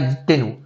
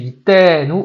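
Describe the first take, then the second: First: The Tav syllable is said short, not drawn out. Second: The Tav syllable is slowed and drawn out. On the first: The speaker calls it wrong. "c'est pas Yitenu" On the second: The speaker calls it right. "c'est Yitenu, on ralentit sur le Tav"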